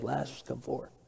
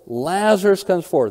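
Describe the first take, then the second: First: It is said quietly, without force. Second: It is said loudly, with commanding force.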